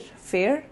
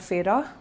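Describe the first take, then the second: First: The name sounds like the word 'fair'. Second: The name does not sound like 'fair'. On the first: The speaker calls it wrong. "I used to think her name is pronounced as Fair" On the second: The speaker calls it right. "that's how it's pronounced"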